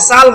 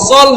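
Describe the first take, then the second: First: The vowel sounds like a clear, open a. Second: The vowel sounds like a dark, rounded o. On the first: The speaker calls it wrong. "সাল হবে না" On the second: The speaker calls it right. "সল হবে"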